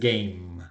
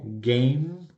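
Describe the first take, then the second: First: The final m is short and natural. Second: The final m is drawn out and exaggerated. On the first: "pero realmente es game" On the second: "Lo estoy sobreactuando un poco y por eso suena ma"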